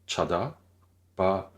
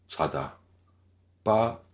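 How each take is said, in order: The two takes are said the same way.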